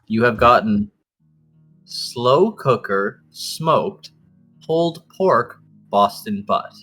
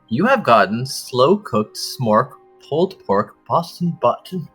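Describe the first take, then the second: First: It is said very slowly, in slow motion. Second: It is said at normal speed.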